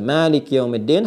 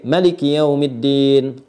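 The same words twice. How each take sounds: First: The first vowel of Maliki is drawn out long. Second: The first vowel of Maliki is kept short. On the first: This follows one recognized reading tradition. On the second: This follows another recognized reading tradition.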